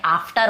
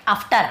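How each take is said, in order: First: "after" as aaf-tar with long open aa; teacher modelling aa in "after"; correct long-vowel pronunciation. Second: "after" as uhf-tar with a short uh; deliberately wrong uh starting "after"; wrong short-vowel pronunciation. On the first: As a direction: stretch the first vowel of "after" to aa. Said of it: "लेकिन ये after होता है". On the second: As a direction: misread "after" with a clipped first vowel. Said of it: "आपने यहाँ पे बोल देंगे after". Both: Shown as a demonstration.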